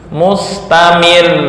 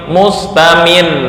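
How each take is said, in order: The two takes are said the same way.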